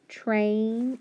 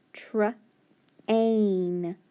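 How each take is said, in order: First: Said in the usual way. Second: Train drawn out slowly, sound by sound; stretched train. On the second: Shown as a demonstration. Teacher sounding out train for students.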